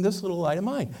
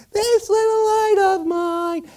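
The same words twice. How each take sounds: First: Said in the usual way. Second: Loud, slow high-pitched singing. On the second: Acted. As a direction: sing out like a squeaky candle choir. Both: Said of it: "all the candles start singing".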